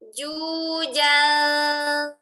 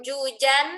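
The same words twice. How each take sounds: First: The final n is faint and hidden. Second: The final n is clear and fully closed. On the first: The speaker calls it right. "bunyi ikhfanya samar-samar" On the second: The speaker calls it wrong. "Bukan jujan"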